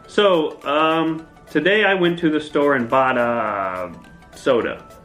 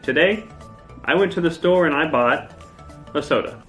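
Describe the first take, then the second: First: A filler sound comes before the sentence. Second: A silent pause comes before the sentence. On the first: The speaker calls it wrong. "Don't say" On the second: The speaker calls it right. "you should just pause and say"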